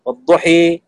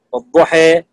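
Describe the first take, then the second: First: والضحى ending tilted right to i; imala kubra. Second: والضحى with a clear open a at the end, slow; fath, open a. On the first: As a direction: bend the final a of والضحى into i. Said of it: "إمالة كبرى". (والضحى بإمالة كبرى) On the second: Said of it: "فتح، والضحى". (والضحى بالفتح الخالص) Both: Shown as a demonstration.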